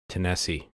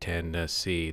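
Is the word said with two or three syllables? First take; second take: two; three. First: The word is said with two syllables. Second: The word is said with three syllables. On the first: This is how locals say it. "if you're from the state, apparently it's Tennessee" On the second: This is how outsiders say it. "Instead of making it Tennessee... instead of three syllables"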